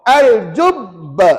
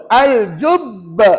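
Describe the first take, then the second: The two takes are said the same way.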